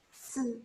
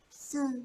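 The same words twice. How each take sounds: Both takes have the same delivery.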